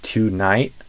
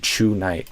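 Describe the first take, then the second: First: The word begins with a crisp T sound. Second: The word begins with a CH sound. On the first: The speaker calls it right. "this t, t, t sound, not a C H" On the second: The speaker calls it wrong. "a lot of Brazilians would do chew night"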